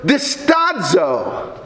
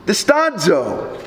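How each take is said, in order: First: Very slow, low "distazo", dis-TAH-dzo; Greek word distazo. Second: Slow, low "Distazo" with a falling end; Greek word distazo. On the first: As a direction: lay down "distazo" low and slowly. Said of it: "The second word is the word". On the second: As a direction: drop "Distazo" low and let it fall. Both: Shown as a demonstration.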